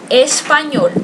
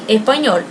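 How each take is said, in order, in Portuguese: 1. O som do s é pronunciado por completo. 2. O som do s é omitido por completo. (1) "na língua espanhola se diz assim, espanhol, essa é a pronúncia" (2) "tão forte que o S não saia"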